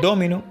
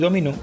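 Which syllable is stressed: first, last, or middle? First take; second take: first; last. First: The stress is on the first syllable. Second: The stress is on the last syllable. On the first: It names the game of dominoes. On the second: It means he dominated.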